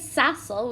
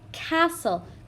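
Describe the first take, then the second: First: The word begins with an S sound. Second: The word begins with a K sound. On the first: The speaker calls it wrong. "We don't say sassel" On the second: The speaker calls it right. "we say castle. K, K, it's a hard C sound"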